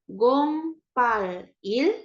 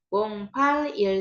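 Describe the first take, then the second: First: The numbers are read slowly, one by one. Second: The numbers are read quickly, run together.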